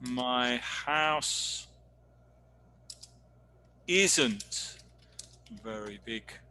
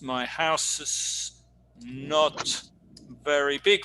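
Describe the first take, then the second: First: The words is and not merge into isn't. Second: The words is and not are said separately. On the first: The speaker calls it right. "Is probably better" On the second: The speaker calls it wrong. "which doesn't sound too good"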